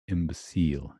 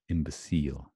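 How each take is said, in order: The two takes are said the same way.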